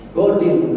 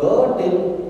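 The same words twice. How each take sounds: First: The vowel in the word is short. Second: The vowel in the word is drawn out long. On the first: It means tomorrow. The speaker calls it right. "kalau niatnya pendek artinya besok" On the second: It means someone eating breakfast. The speaker calls it wrong. "artinya adalah orang yang lagi nyarap pagi"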